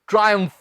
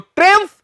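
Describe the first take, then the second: First: The first syllable sounds like 'try'. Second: The first syllable sounds like 'trim'. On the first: The speaker calls it right. "क्या कहेंगे आप?" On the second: The speaker calls it wrong. "तो ट्रिम्फ नहीं कहना"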